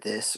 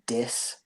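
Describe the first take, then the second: First: The word begins with a th sound. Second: The word begins with a d sound.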